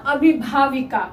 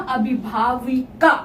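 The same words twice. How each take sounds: First: Said in the usual way. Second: अभिभाविका broken up, with का set apart at the end; teacher sounding out अभिभाविका in parts; syllable-by-syllable word. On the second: Shown as a demonstration. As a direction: build अभिभाविका in pieces for the class. Teacher builds the new word.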